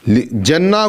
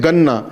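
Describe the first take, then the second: First: The word begins with a 'j' sound. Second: The word begins with a hard 'g' sound. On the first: This is the standard reading. "Quran में आया जन्ना" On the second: This is how Egyptians read it. "मिस्र के अफराद ... जीम को गाफ पढ़ते हैं"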